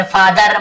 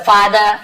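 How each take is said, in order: First: "फादर" with a full final r; final r pronounced. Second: "फादर" ending in "duh", no r; silent final r. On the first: Teacher showing what not to say, "फादर" with final r sounded. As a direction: end "फादर" on a clearly sounded r. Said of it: "ऐसे र को पूरा नहीं बोलते". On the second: Teacher giving an example to students, "फादर" with final r silent. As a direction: drop the last r of "फादर". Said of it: "र थोड़ा silent होता है". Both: Shown as a demonstration.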